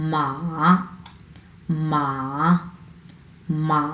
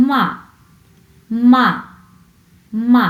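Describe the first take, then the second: First: MA held long and low, without a sharp fall. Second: মা starting high and dropping sharply; Mandarin fourth tone. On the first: Teacher demonstrating a tone to Chinese learners, long held tone. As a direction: draw out মা on a low, sustained tone. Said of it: "তাহলে এটা আসবে". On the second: Teacher demonstrating the fourth tone to learners, falling tone. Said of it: "এটি উচ্চ থেকে নিচে নেমে আসে". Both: Shown as a demonstration.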